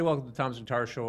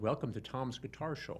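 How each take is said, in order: First: The words are run together loosely. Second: Each word is articulated clearly and crisply. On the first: The speaker calls it wrong. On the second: The speaker calls it right.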